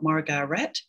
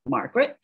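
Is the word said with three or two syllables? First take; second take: three; two. First: Every written syllable is pronounced, giving three syllables. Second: The middle syllable is dropped, giving two syllables. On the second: "collapsing syllables ... the speech and the spelling of those syllables doesn't match"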